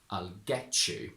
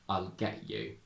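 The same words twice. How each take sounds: First: The t and y merge into a ch sound. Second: The t becomes a glottal stop before you. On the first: "perfectly correct to say" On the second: "I would say"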